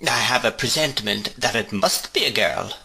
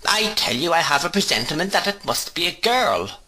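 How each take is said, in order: First: Said in the usual way. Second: Put-on higher, firmer insistence on the girl; insist, brooking no contradiction; insistent repeat. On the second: A narrator's reading. Miss Betsy overriding the mother, insisting on a girl. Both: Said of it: "returned Miss Betsy".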